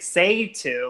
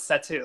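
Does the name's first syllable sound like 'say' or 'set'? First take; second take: say; set. First: The first syllable sounds like 'say', without a t. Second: The first syllable sounds like 'set', with a t. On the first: This is how most other people say the name. The speaker calls it wrong. "I hear everyone else say say to, like S A Y" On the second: This is how the person himself says his name. The speaker calls it right. "no, it's set to, like set something down"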